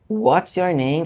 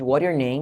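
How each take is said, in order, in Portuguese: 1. Cada palavra é dita inteira e com clareza. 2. As palavras são ditas rápido e emendadas. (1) "não se fala what's your name" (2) "falar com velocidade"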